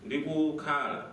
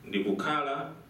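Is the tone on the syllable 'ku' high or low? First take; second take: high; low. First: The syllable ku has a high tone. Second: The syllable ku has a low tone. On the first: While I was staying. "but if I make it high" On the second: I am staying. "the ku is in its low"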